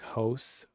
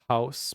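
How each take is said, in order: First: It is said in a Canadian accent. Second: It is said in a general American accent.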